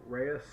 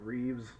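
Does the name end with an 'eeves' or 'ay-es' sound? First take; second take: ay-es; eeves. First: The name is said like 'ray-es'. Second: The name is said like 'reeves'. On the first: The speaker calls it right. "The name, to the best of my abilities, is Augusto Reyes" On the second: The speaker calls it wrong. "not Reeves"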